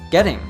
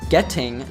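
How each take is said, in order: First: The T is a quick flapped sound. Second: The T is a crisp, clear T sound. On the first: "T sounds like a flat T" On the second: "instead of saying getting"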